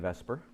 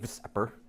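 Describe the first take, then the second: First: The term is said as one word. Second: The term is spelled out letter by letter. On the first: The speaker calls it right. "we say Vesper" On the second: The speaker calls it wrong. "we don't say VSEPR"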